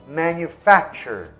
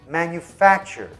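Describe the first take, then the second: No difference in how they are said.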